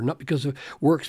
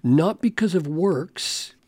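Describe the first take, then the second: First: Quick, throwaway reading of the phrase; hurried, offhand contrast take; rushed wrong version. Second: "Not because of works" slowed, each word weighed, with weight on "because"; deliberate correcting take of "Not because of works"; slow emphatic quote. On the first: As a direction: rattle off "Not because of works" as the version Paul doesn't say. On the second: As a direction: lean on "because" and let "Not because of works" land slowly. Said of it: "He says". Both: Shown as a demonstration.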